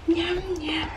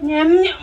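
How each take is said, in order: First: Soft unvoiced whisper to a baby. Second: Laughing. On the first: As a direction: breathe it in a playful whisper. Feeding baby, then whispered. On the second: Acted. Feeding baby, laughing.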